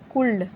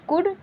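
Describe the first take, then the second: First: An L sound is pronounced before the final D. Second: No L sound is pronounced before the final D. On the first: The speaker calls it wrong. "यहाँ पे भी बच्चे बहुत mistake करते हैं" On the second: The speaker calls it right. "ऐसे पढ़ा जाता है"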